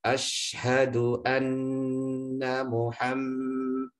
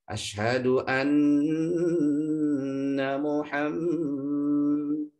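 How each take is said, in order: First: The pitch stays level throughout the phrase. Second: The pitch wavers melodically like a call to prayer. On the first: The speaker calls it right. "satu level" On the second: The speaker calls it wrong. "seperti kalau kita dengar adzan ya"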